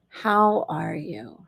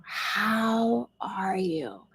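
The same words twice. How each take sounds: First: Said in the usual way. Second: Slow, breathy whisper; very slow whispered ask. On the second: Shown as a demonstration. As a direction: whisper the question to yourself. Asks herself the question, whispered.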